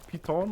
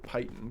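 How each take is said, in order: First: It is said with a French-style pronunciation. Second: It is said with an American-style pronunciation. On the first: The speaker calls it right. "the French way of saying it" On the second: The speaker calls it wrong. "in such an American way"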